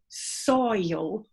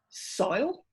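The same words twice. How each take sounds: First: The word is said with two syllables. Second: The word is said with one syllable. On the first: "to rhyme with royal" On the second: "one peak"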